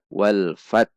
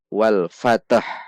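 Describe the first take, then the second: First: The t ends cleanly with no added vowel. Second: An extra echoing vowel follows the t sound. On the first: The speaker calls it right. "Namun dibaca wal fat" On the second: The speaker calls it wrong. "bukan dibaca wal fatah. Karena ta bukan qalqalah"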